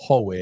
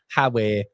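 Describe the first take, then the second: First: "Howe" as ho-way, rounded vowel; Newcastle "Howay". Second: "Howe" as ha-way, open vowel; Sunderland "Howay". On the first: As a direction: say "Howe" as HO-way, quick contrast. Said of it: "Newcastle is Howe". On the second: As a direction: say "Howe" as HA-way after a chuckle. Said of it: "Sunderland is Howe". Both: Shown as a demonstration.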